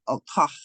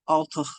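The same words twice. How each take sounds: First: It is said in a Munster Irish accent. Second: It is said in a Connacht Irish accent. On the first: "in um, Munster" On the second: "in Connacht"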